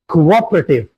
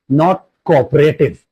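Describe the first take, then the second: First: The ending -ative has a weak, reduced vowel. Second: The ending -ative has a full 'ay' vowel. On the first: The speaker calls it right. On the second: The speaker calls it wrong.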